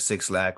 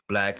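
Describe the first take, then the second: First: The name is said as two words, 'six lack'. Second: The name is said as one word, 'black'. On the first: The speaker calls it wrong. "or how- however you want to pronounce it" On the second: The speaker calls it right. "I know, I know"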